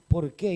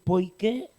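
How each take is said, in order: First: The r in 'por' is pronounced clearly. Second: The r in 'por' becomes an i-sound. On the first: "en vez de decir por qué" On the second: "Hay algunos dominicanos que les cuesta la pronunciación"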